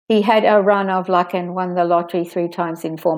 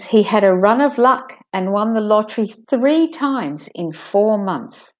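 First: It runs on with no pause after luck. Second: There is a pause after luck. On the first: The speaker calls it wrong. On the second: The speaker calls it right.

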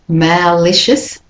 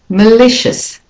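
First: The first vowel is said fully and clearly. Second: The first vowel is weak and reduced. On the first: The speaker calls it wrong. "It's not malicious" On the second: The speaker calls it right. "the A is also de-stressed"

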